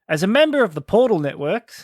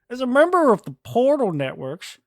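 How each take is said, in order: First: It is read in his normal voice. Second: It is read in a put-on turtle voice.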